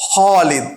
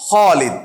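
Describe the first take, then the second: Both takes have the same delivery.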